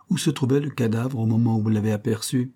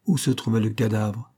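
First: Said in the usual way. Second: Mechanical repeat. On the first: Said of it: "demanda le brigadier". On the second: Acted. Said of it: "répéta machinalement Stetson".

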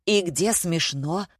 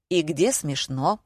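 First: Slow, plaintive question; understated tearful whine; nearly crying. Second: Slow, sullen question; slow, restrained annoyance; said through teeth. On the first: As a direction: ask it as if close to tears. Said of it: "чуть не заплакал Григорий". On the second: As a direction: squeeze it out through gritted teeth. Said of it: "процедил Гриша". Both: A narrator's reading.

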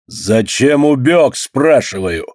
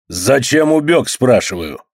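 First: Slower, booming repeat of убёг; thundering demand. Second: Slow, heavy angry question; angry demand. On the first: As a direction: thunder out убёг, stretched long. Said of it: "гремит голос хозяина". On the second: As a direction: lean on убёг, demanding an answer. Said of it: "Громкий и сердитый голос". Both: A narrator's reading.

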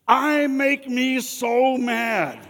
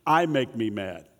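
First: High, slow, loud laughing whine; mock angry whine. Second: Sincere admission. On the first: Pastor mocking what no angry person says, high slow whine with a laugh. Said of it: "you'll never hear come out of the mouth of an angry person". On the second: Real, not acted. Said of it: "let you in on a little secret".

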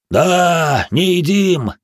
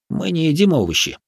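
First: Loud, high guffaw. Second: Said in the usual way. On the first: Acted. The giants guffaw in agreement that they don't eat vegetables. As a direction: bellow it through a laugh. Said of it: "загоготали гиганты". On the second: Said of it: "first take, spoken plainly".

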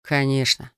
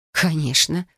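First: Mildly reassuring, settled tone; easy, understated reassurance; smiling assurance. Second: Mildly derisive, questioning lilt; understated sarcastic scoff; scornful snort. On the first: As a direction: say it with a confident smile. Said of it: "улыбнулся он". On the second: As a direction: toss it back with a touch of scorn. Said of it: "фыркнула я". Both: A narrator's reading.

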